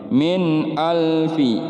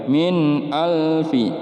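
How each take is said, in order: Both takes have the same delivery.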